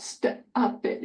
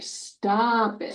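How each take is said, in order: First: Whispered "Stop it" with the break shown; broken stop it. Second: "Stop it" run together smoothly; joined stop it. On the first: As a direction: mimic the choppy "Stop it". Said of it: "Is that the way I wanna hear it". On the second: Therapist models a smooth joined phrase. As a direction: say "Stop it" as one unit. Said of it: "let's get it all together". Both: Shown as a demonstration.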